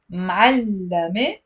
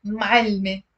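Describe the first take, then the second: First: Ma'allame said slowly in three beats, doubled l; three-syllable ma'allame. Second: Ma'alme said as two quick beats, maal-me; two-syllable ma'alme. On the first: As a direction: draw ma'allame out as ma-al-la-me. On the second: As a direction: clip ma'alme short into maal-me. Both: Shown as a demonstration. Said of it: "That's the difference".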